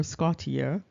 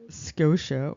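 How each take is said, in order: First: Scotia said as SKAH-tee-uh; Latin-style pronunciation. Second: Scotia said as SKOH-sha; English pronunciation. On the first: Giving listeners the name's other form, Latin-style pronunciation. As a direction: sound the T in Scotia, three syllables. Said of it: "the word Scotia or". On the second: Explaining the name's origin to listeners, English pronunciation. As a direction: say Scotia with a long O and a sh sound. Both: Shown as a demonstration.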